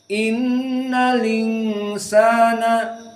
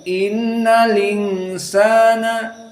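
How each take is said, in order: Both takes have the same delivery.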